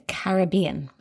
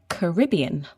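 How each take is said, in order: First: It is said the non-North American way. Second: It is said the North American way. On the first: "you said Caribbean" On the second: "In North American English, we say the Caribbean"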